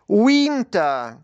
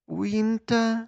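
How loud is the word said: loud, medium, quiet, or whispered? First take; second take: loud; quiet. First: The word is said loudly. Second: The word is said quietly. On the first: "Голосно" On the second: "тихіше"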